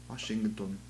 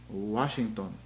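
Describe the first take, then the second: Both takes have the same delivery.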